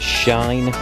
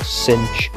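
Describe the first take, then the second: First: It is said like the word shine. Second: It is said like the word cinch. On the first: "I pronounce them as shine" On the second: "You might also hear them called cinch, with a CH in there"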